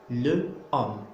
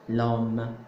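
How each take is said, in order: First: The e of le is pronounced before homme. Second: The e is dropped, l joined directly to homme. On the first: The speaker calls it wrong. "je dois faire euh, élision" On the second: The speaker calls it right. "J'enlève le e et je mets à la place l'apostrophe et ça devient l'homme"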